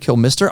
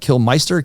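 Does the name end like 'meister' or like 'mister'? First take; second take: mister; meister. First: The second part sounds like English 'mister'. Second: The second part sounds like German 'meister'. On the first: "there's no E I there" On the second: "I tend to want to go German with Meister"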